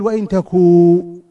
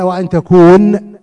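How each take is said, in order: First: "وإن تكو" with the final n dropped; a teacher's model reading of "وإن تكو"; say it without the n. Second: "وأن تكون" with the final n said clearly; louder, slow demo of "وأن تكون"; full form with the n. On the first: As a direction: clip "تكو" short, no n at the end. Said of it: "يعني المفروض يقول". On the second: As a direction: spell out "تكون" slowly and in full. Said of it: "وبدا". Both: Shown as a demonstration.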